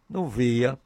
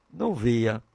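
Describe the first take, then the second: No difference in how they are said.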